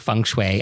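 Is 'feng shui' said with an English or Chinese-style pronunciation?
English. It is said with a plain English pronunciation. The speaker calls it right.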